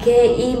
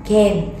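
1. Từ này được tách thành hai âm tiết riêng. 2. Từ này được gộp thành một âm tiết duy nhất. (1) "Mình sẽ không đọc là kê im" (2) "mà mình sẽ đọc kem"

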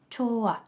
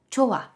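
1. Звук h випадає між голосними. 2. Звук h випадає між голосними.

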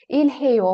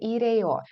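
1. Звук h вимовляється, а l залишається l. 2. Звук h пропускається, а l звучить як r. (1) "Ільгейо можете казати" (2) "хе майже не вимовляється ... цю Л можемо вимовляти як Р, коли швидко кажемо"

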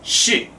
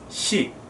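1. 이 음절은 배에서 힘을 주어 발음됩니다. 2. 이 음절은 낭독할 때처럼 가볍게 발음됩니다. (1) "배에 힘을 주고" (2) "우리가 생각하는 낭독할 때 시, 요 정도 수준이 아니라"

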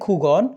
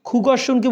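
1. শব্দটি সংক্ষিপ্ত রূপে বলা হয়। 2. শব্দটি পূর্ণ রূপে বলা হয়। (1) "খুগর্ষণকে বলতেছি খুগন" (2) "খুগর্ষণকে বলতেছি খুগন"

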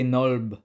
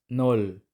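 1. Ang salita ay nagtatapos sa tunog na lb. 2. Ang salita ay nagtatapos sa tunog na l. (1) "Hindi nolb" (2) "Yung pangalawang consonant ay magiging silent"

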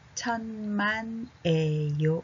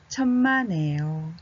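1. ゆっくりです。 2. 普通の速さです。

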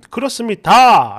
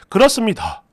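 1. 마지막 음절을 또렷하고 힘 있게 끝까지 발음합니다. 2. 마지막 음절이 힘없이 흐려지며 바람 빠진 소리로 끝납니다. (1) "라고 정확하게 다 해야 되는데" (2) "끝 다짜 발음해서 힘을 쫙 빼버리고"

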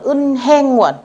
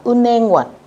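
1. Đọc chậm, âm h được giữ rõ ràng. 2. Đọc nhanh, n nối sang, âm h bị bỏ. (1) "Nếu như các bạn đọc chậm thì chúng ta sẽ đọc là" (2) "nếu đọc nhanh chữ N có thể sẽ đọc nối lên"

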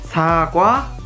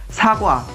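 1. Suku kata pertama panjang. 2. Suku kata pertama pendek. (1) "sa lebih panjang di sini" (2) "사과 itu berarti sebuah apel"

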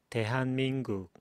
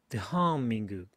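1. 모든 음절이 같은 박자로 고르게 읽혀요. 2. 어떤 음절은 강하게, 어떤 음절은 약하게 읽혀요. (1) "따따따따 … 이게 우리나라의 발성이고요" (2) "영어의 발성은 강세가 있냐 … 이렇게 발음하는 겁니다"

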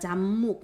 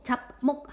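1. 첫 음절은 비음으로 끝난다. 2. 첫 음절은 파열음으로 끝난다. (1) "비읍이 미음 만나가지고 얘가 잡목, 미음으로 바뀌어" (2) "잡목 하지 않고"

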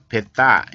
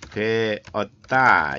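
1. 이 단어는 두 음절로 줄여서 발음해요. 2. 이 단어는 음절 세 개를 다 발음해요. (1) "이거를 줄여서" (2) "배웠다 할 때"

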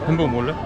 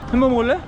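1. 목소리가 차분하고 잔잔해요. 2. 목소리가 활기차고 신나요.

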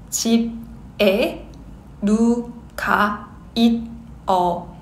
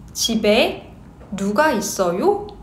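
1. 이 문장은 천천히 말해요. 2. 이 문장은 보통 속도로 말해요. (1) "Slow speed" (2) "Normal speed"

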